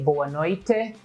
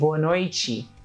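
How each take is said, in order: First: The final syllable of noite sounds like tee. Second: The final syllable of noite sounds like chee. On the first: This form is heard only in some southern places. "we don't say" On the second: This is how most of the country says it. "we say; this te at the end pronounced as she"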